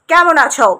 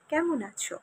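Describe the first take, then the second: First: It is said in an unpleasant, cold tone. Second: It is said in a pleasant, warm tone.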